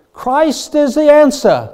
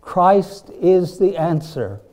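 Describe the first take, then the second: First: Loud, high, drawn-out North Carolina preacher; booming, slow proclamation pitched way up; Billy Graham. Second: CHRIST IS THE ANSWER, slow and raised in pitch; preacher's own slow, emphatic "Christ is the answer"; emphatic declaration. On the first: Retold or imitated. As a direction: ring it out like a crusade evangelist with a North Carolina accent. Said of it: "in his great North Carolina accent". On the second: Real, not acted. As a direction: declare "Christ is the answer" firmly, each word drawn out.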